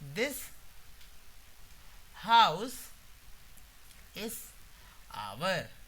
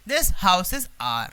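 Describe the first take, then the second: First: 'Our' is said with two syllables, like 'ow-er'. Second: 'Our' is said with one syllable, like 'ar'. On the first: The speaker calls it wrong. "आवर मत बोलिए" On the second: The speaker calls it right. "आर बोलते"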